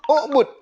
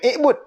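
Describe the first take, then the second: First: The word begins with a rounded u vowel. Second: The word begins with an unrounded i vowel. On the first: The speaker calls it right. "Maka hamzah wasal tu kita kena domahkan" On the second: The speaker calls it wrong.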